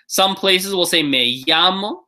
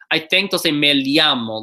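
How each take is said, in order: First: The 'll' sounds like an English Y. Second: The 'll' sounds like an L followed by Y. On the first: "like a y, like a Y sound in English" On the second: "like an L Y"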